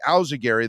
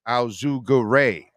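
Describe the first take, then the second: First: Al Zugary ending like Gary; easier pronunciation. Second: Al Zugare slowly, ending in RAY; harder original pronunciation. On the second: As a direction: draw out Al Zugare as al-zoo-ga-RAY. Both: Shown as a demonstration. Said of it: "easier for people to say".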